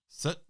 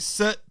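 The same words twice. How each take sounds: First: It is said in a plain, neutral tone. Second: It is said as a forceful, stern command.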